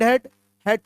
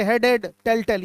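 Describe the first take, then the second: First: "head, head" read together as one pair; correct grouped reading. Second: "head, head, टेल, टेल" run across as one flat list; wrong reading shown. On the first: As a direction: say "head, head" as a single outcome. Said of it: "ऐसे पढ़ेंगे". (सही तरीका, "head, head" एक साथ जोड़कर) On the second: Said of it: "ऐसे नहीं पढ़ेंगे". (गलत तरीका, "हेड, हेड, टेल, टेल" एक सीधी सूची में) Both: Shown as a demonstration.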